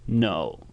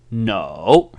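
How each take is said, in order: First: "No" low, soft and falling into a scratch; scratchy, sinking "No"; croaky third tone. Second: "No" dipping low, then rising; emphatic fall-then-rise on "No"; full third tone. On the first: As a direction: croak "No" quietly in the throat. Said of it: "croaky or a scratchy sound". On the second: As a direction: draw "No" down and back up. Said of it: "like a croaky or a scratchy". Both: Shown as a demonstration.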